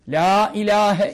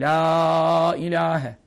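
First: The phrase is said quickly without lengthening. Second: The phrase is said slowly with lengthened vowels. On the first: "Bu en hızlı okuması" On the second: "Ha uzatırsan çok iyidir"

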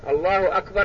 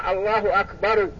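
First: The word stops on a bare final r. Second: The word ends with a vowel after the r. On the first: The speaker calls it right. "لأنه لا يوقف على المتحرك" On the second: The speaker calls it wrong. "وفي ناس يقول الله أكبر، أيضا هذا غلط"

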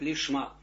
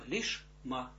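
First: A faint vowel links the sh into the m. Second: The sh stops fully before the m. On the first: The speaker calls it wrong. "А нельзя говорить лишма. Мы так говорим, конечно, на уроках" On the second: The speaker calls it right. "Здесь полная остановка"

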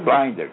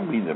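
First: The name is said with an English pronunciation. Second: The name is said with a Brazilian Portuguese pronunciation. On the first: "mas de fato é, no inglês é blinder" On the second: "no Brasil pronuncia blinder"

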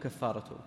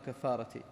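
First: The word ends with a u vowel. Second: The word ends with an i vowel. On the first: It starts a new sentence as its subject. "وإذا نطقت مبتدأ يكون كفارته" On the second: It belongs to the preceding word 'chapter' as a possessive. "إذا قلت باب يكون مضاف إليه"

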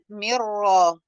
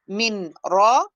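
First: The n merges into the following r sound. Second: The n is pronounced separately before the r. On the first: The speaker calls it right. "فالأسهل من را أهي" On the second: The speaker calls it wrong. "من را في صعوبة"

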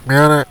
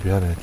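First: It is said nasal with a raised pitch. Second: It is said in a natural speaking voice.

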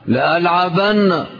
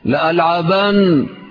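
First: The word ends with a doubled, held n. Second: The word ends with a short single n. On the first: "هذه نون التوكيد الثقيلة" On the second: "نون التوكيد الخفيفة"

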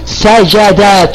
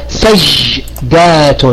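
First: The middle consonant is followed by an a vowel. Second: The middle consonant has no vowel after it. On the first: "أن نفتح هذا الوسط" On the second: "فنبقي عليه كما هو فقط نضيف الألف والتاء"

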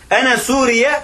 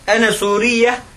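First: The end of the last word is plain. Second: The end of the last word is emphasized. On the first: The speaker is the country Syria. The speaker calls it wrong. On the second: The speaker is Syrian. The speaker calls it right.

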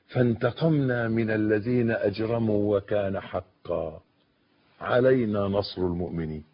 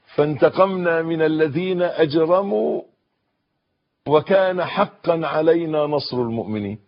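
First: There is a pause after 'wa kana haqqan'. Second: The verse is read straight through without pausing. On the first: "وقفة وكان حقا" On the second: "كلنا بنقرأ كده"

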